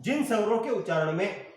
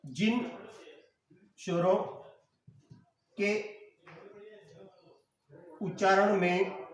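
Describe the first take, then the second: First: Said in the usual way. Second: "जिन स्वरों के उच्चारण में" said slowly, long pause after each word; word-by-word dictation. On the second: Shown as a demonstration.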